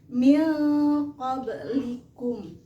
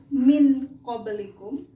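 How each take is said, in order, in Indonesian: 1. Huruf n sebelum q dibaca samar dan sengau. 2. Huruf n sebelum q dibaca dengan jelas. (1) "maka cara membacanya samar. Begini" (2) "Yang seharusnya ini dibaca"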